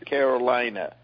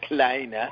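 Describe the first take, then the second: First: Every syllable of the word is pronounced fully. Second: The word is shortened, with syllables run together. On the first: "We see there's 9 letters" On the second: "it's pronounced Kalina"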